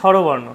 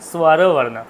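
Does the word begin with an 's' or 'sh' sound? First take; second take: sh; s. First: The word begins with a palatal 'sh' sound. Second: The word begins with a dental 's' plus 'w'. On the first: The speaker calls it wrong. "আমরা বলি অনেকে স্বরবর্ণ ... তালব্য স" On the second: The speaker calls it right. "যথাযথ উচ্চারণ ... স্ব সাথে ব আছে"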